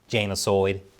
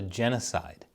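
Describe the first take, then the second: First: It is said in a put-on New Zealand accent. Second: It is said in a plain American accent.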